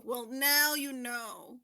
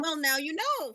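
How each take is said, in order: First: Slow, stretched-out repeat; teasing, drawn out. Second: Said in the usual way. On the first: Real, not acted. Host answering a contestant who never saw the meme, drawn out. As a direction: draw each word out teasingly.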